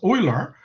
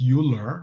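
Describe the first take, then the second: First: The name is said with a German pronunciation. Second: The name is said with an English pronunciation. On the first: The speaker calls it right. "in German it's pronounced Euler" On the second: The speaker calls it wrong. "It's not pronounced Euler"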